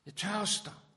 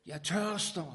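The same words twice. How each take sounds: First: High, loud cry of thirst; crying out again. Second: Loud, high cry of thirst from the cross. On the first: Jesus on the cross repeating his cry, loud and high. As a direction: cry it out even higher. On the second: Jesus on the cross crying out his thirst, loud. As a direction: call it out like a dying man's cry. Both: Acted. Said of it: "råbte han".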